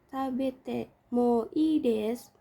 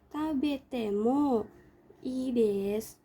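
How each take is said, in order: First: It runs straight on without a pause. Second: There is a pause before ii desu. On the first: The speaker calls it wrong. "karena sudah terbiasa tuh kadang kayak gini nih" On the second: The speaker calls it right. "cara yang benarnya itu ... jeda dulu baru lanjut ke ides"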